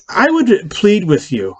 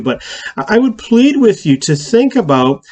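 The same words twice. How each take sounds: First: Slow, high plea with WOULD stressed; earnest plea. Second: High plea, "plead" stressed and stretched; stronger plea. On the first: Pastor pleading with viewers to share, slow earnest plea. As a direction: lean on "would", drawn out and pleading. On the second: Pastor repeats his plea more urgently, stress on plead. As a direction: hit "plead" hard and high. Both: Real, not acted.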